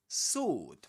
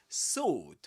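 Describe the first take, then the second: The two takes are said the same way.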